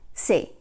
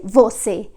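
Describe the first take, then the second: First: The word is shortened to one syllable. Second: The word is said in full, two syllables. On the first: The speaker calls it right. "we say like se" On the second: The speaker calls it wrong. "Brazilians don't say você"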